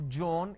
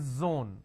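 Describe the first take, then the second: First: It begins with a j sound. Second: It begins with a z sound. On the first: The speaker calls it wrong. "replace the z with a j" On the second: The speaker calls it right. "It's a z sound"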